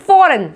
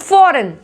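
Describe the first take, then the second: Both takes have the same delivery.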